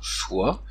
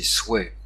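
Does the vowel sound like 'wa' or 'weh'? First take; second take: wa; weh. First: The vowel is pronounced like 'wa'. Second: The vowel is pronounced like 'weh'. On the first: A Parisian, popular pronunciation. "Soit est une prononciation parisienne et populaire" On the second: A courtly, aristocratic pronunciation. "la graphie OI note le son ouais"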